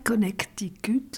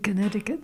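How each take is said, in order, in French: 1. Le nom se prononce avec un accent français. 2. Le nom se prononce avec un accent américain. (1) "c'est pas Connecticut" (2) "c'est Connecticut"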